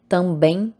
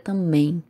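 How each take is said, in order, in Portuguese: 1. O grupo MB é pronunciado com o B. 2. O B é omitido, ficando só o M.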